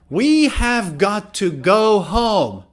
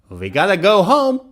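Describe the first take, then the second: First: The words are said fully and separately. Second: The words blend into a short reduced form.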